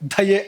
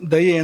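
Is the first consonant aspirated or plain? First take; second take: aspirated; plain. First: The first consonant is said with a puff of breath. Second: The first consonant is said without a puff of breath. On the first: The speaker calls it wrong. "ದಯೆ ಅಂತಾರೆ ಹೇಳಬಾರ್ದು" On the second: The speaker calls it right. "ದಯೆ ಅಂತ ಅದನ್ನ ಹಾಗೆ ಹೇಳೋಕ್ಕಿರೋಂಥದ್ದು"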